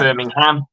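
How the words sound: It is said the American way.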